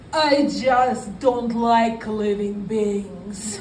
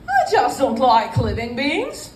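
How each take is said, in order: First: It is spoken with a Russian accent. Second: It is spoken with a British accent. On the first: "I say in my Russian accent" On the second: "with a kind of British accent"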